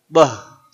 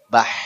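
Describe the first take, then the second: First: It is said like a Medan exclamation. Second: It is said with a breathy final h. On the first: The speaker calls it wrong. "Tidak seperti Medan" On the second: The speaker calls it right. "Tapi bah, ya"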